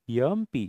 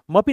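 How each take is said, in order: First: It begins with a vowel, 'em'. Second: It begins with a bare 'm' consonant. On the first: The speaker calls it right. "य अ sound आहे" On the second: The speaker calls it wrong. "म-पी नाही म्हणत"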